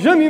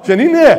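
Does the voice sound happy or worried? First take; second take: worried; happy. First: The name is said in a worried voice. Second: The name is said in a happy voice.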